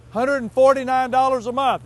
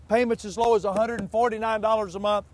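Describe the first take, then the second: First: "forty-nine" punched higher and louder, the whole price hammered home; emphatic repeat. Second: Said in the usual way. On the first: Acted. Did you hear that?.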